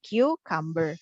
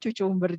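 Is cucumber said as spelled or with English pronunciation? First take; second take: English pronunciation; as spelled. First: The word is said with English pronunciation. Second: The word is read letter by letter as spelled. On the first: The speaker calls it right. "tapi cucumber" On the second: The speaker calls it wrong. "jangan kemudian membacanya cucumber juga ya"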